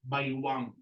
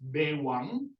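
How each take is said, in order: First: The first vowel is an 'ay' glide. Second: The first vowel is a plain 'e'. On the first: "but others also say baywang" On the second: "You can uh, say it as bewang"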